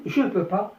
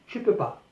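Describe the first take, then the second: First: Said in the usual way. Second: Je peux pas said quickly with no ne; casual spoken je peux pas, no negation particle; spoken French. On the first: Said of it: "في المكتوب". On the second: Shown as a demonstration. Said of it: "أما في المنطوق فأقول". (نطق شفهي: je peux pas بلا ne)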